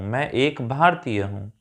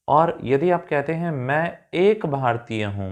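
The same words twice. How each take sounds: First: एक leaned on a little, the rest of मैं एक भारतीय हूँ said as usual; stress on एक. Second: Said in the usual way. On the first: Shown as a demonstration. Teacher repeating the sentence to point students to एक, with a light stress on एक. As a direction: give एक a light extra push. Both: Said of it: "तो एक कहने के लिए".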